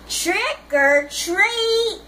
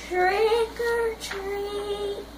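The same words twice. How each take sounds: First: It is said a little louder. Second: It is said very softly.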